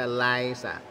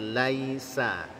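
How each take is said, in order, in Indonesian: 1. Bunyi i-nya dipotong pendek. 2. Bunyi i-nya penuh dan utuh. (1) "jangan sampai terbaca laisa" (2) "Sempurnakan bunyi i-nya"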